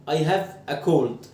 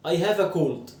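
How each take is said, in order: First: I have a cold said very slowly, word by word; slow model sentence. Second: Said in the usual way. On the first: Shown as a demonstration. Teacher models I have a cold slowly for students. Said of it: "أنا أشعر بالبرد". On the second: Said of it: "عايز أقول أنا عندي برد".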